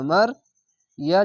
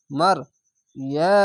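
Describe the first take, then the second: No difference in how they are said.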